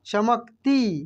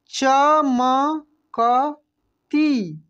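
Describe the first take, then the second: First: Said in the usual way. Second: चमकती stretched very slowly, each syllable separate. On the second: Shown as a demonstration. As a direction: sound out चमकती slowly for the class. (चमकती को अक्षर अक्षर धीरे बोलिए) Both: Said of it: "क्या पढ़ेंगे हम लोग?".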